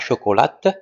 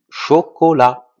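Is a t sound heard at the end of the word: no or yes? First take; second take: yes; no. First: The word ends with an audible t sound. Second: The word ends on the vowel, no t sound. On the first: The speaker calls it wrong. "On ne dit pas chocolate" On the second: The speaker calls it right. "mais on dit chocolat"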